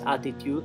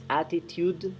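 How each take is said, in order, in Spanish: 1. El sonido final de la D se omite. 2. El sonido final de la D se pronuncia claramente. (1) "No es attitude en" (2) "Pronuncian bien claramente la D final"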